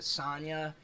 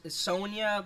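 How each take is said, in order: First: "Sonya" said as SAHN-ya; dub pronunciation. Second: Said in the usual way. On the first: Retold or imitated. Streamer showing the anime dub's name, "Sonya" as SAHN-ya. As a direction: open "ah" in the first syllable of "Sonya". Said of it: "Yasuna pronounces it Sonya".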